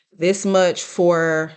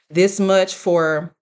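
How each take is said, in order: Both takes have the same delivery.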